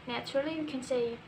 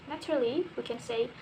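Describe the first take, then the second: The two takes are said the same way.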